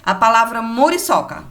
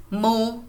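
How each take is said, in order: First: Said in the usual way. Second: "Mu-ri-so-ca" with a clear break between each syllable, softer; split into syllables. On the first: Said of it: "Mu-ri-so-ca". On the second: Shown as a demonstration. Teacher counting syllables in "Mu-ri-so-ca" for pupils, one beat each. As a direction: tap out "Mu-ri-so-ca" one syllable at a time. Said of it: "Quantas vezes eu abri e fechei a boca?".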